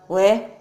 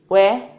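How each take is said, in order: No difference in how they are said.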